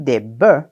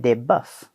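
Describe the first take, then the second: First: The final F sound is silent. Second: The final F sound is pronounced. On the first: "Madame Guidry a pas dit des bœufs" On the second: "le F final de bœuf va rester même au pluriel"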